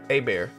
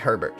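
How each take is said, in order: First: It sounds like 'ay-bear' with no H or T. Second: It sounds like 'her-bert' with H and T. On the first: It is the Cajun way of saying the name. "I'm a Cajun, so A Bear" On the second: It is the non-Cajun way of saying the name. "But I'm gonna say it could be Herbert"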